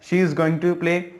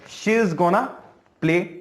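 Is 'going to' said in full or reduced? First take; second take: full; reduced. First: 'Going to' is said in full. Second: 'Going to' is reduced to 'gonna'.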